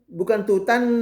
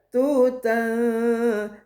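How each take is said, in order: First: The n sound is pronounced fully and clearly. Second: The n sound is hidden into a nasal hum. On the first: The speaker calls it wrong. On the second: The speaker calls it right. "maka bunyi bacaannya disamarkan"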